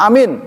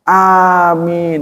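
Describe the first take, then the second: First: The vowel is clipped very short. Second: The vowel is held a moderate length. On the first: The speaker calls it wrong. "pendek, jangan ditiru" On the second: The speaker calls it right. "harusnya begitu"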